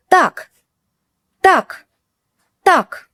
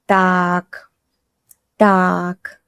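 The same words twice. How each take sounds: First: Так said high and sharp, enough; stern Так. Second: Так said low and soft, pondering; thoughtful low Так. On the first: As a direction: snap out Так like a final warning. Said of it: "It can mean, «Enough, stop.»". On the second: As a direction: drop the pitch on Так, thinking it over. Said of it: "It can mean, «All right, let's think.»". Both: Shown as a demonstration.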